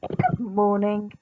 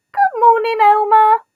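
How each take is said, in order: First: Soft, slow, lower good morning; gentle reply. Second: Bright, loud, higher hello; cheery greeting. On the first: Elmer smiling back softly at the animals. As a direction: answer kindly and quietly. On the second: Animals calling a cheerful good morning to Elmer. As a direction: call out a happy good morning. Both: A narrator's reading.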